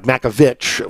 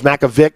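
First: The name is said with a Croatian pronunciation. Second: The name is said with an English pronunciation. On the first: This is how everyone says the name now. "now it's like Makovic from everybody that they're saying it's Croatian pronunciation" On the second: This is how the name used to be said. "it was Makovic"

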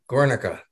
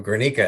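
First: The name is pronounced with an English accent. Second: The name is pronounced with a Spanish accent.

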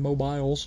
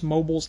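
First: It is said in a British accent. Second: It is said in an American accent.

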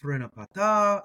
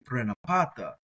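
First: The stress is on the last syllable. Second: The stress falls before the last syllable. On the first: "put the stress on that last syllable" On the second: "I want to say"

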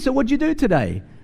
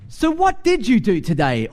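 First: The question sounds light and innocently curious. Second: The question sounds pointed and accusing. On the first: The asker is simply interested in the other's day. The speaker calls it right. "That's an innocent question" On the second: The asker implies the other did nothing all day. The speaker calls it wrong. "you ask it like this"

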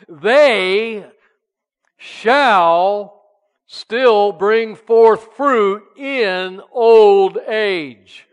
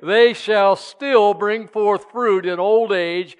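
First: It is read very loudly. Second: It is read at normal volume.

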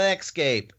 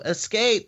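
First: The word begins with an 'ex' sound. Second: The word begins with an 'es' sound. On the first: The speaker calls it wrong. "not escape. We're not going to the ESPN X Games" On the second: The speaker calls it right. "No, escape"

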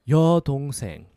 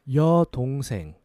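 The two takes are said the same way.

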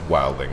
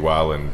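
First: The ending is fully pronounced with -ing. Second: The ending is clipped to a short -in sound. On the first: It is the sober, wholesome version. "you pronounce the whole thing like as a proper word" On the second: It is the usual casual form. "normally you would be wildin'"

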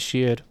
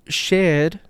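First: It is said with the Iranian vowel. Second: It is said with the Afghan vowel. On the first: "but in Iran, ... Lion is shir" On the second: "In Afghanistan, they're pronounced shared and shir. And shared is a lion"

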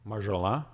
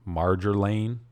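First: The word is pronounced the French way. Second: The word is pronounced the American way. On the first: The speaker calls it right. "But the French pronunciation" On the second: The speaker calls it wrong. "if you want to bastardize and Americanize it"

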